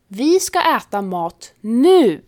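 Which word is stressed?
nu. The stress is on the word nu. We will eat right now, not later. "betyder vi ska äta exakt nu, inte snart eller sen"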